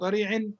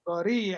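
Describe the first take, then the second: First: The ending carries a held nasal hum. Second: The ending merges onward without a nasal hum. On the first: The speaker calls it wrong. "not ضريع" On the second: The speaker calls it right. "We say ضريع"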